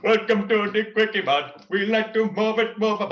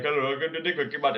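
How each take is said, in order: First: King Julian voice. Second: Apu voice. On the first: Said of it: "Unless you practice to get". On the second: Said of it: "keep sounding like, um, Apu". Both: Shown as a demonstration.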